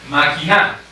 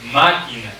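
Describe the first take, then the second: First: The stress is on the last syllable. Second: The stress is on the first syllable. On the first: The speaker calls it wrong. "¿Qué tal si yo pusiera esa fuerza de voz en, en la sílaba na?" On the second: The speaker calls it right. "¿qué tal si yo le pongo en la sílaba ma?"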